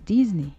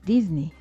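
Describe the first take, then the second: Both takes have the same delivery.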